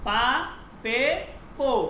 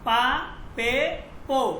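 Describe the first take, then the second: The two takes are said the same way.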